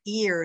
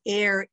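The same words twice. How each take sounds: First: "ear" with an EE vowel for air; Brooklyn pronunciation. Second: Said in the usual way. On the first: Shown as a demonstration. Teacher showing how Brooklyn says air, Brooklyn pronunciation. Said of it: "In Brooklyn, they pronounce air, ear". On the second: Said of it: "they pronounce air".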